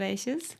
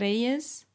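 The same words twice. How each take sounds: First: The 'y' sounds like English 'sh'. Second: The 'y' sounds like English 'y'. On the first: This is the Argentinian pronunciation. "that's also like the very Argentinian pronunciation" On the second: This is the usual Spanish pronunciation. "in Spanish, usually you would say Reyes"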